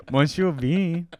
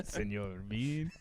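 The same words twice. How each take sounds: First: Put-on Monsieur Bean in a vague Mexican accent; vague Spanish accent. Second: Put-on Senor Bean, slow, with a Spanish accent. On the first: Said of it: "in a vaguely Spanish slash Mexican accent".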